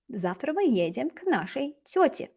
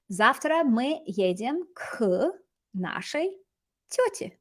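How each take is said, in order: First: Said in the usual way. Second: Slow, with pauses before the last words; slow model reading. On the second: Shown as a demonstration. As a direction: build the sentence slowly for learners. Teacher models sentence slowly, then repeats.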